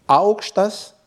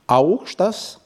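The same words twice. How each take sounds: First: Augštas said slowly, falling from the first part; falling rough tone. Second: Augštas with the tone rising at the end; soft rising tone. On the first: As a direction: drop augštas from the start, slowly. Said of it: "avec intonation rude descendante". (augštas, intonation rude descendante) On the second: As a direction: let augštas climb on the second part. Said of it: "avec intonation douce montante". (augštas, intonation douce montante) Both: Shown as a demonstration.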